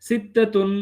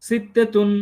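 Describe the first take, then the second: No difference in how they are said.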